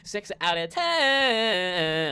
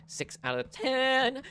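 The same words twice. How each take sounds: First: Slow, loud, drawn-out announcer; dramatic announcer voice. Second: Slow drawn-out score. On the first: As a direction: announce the score like a showman. Score repeated louder, odd voice. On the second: Score announced slowly. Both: Shown as a demonstration.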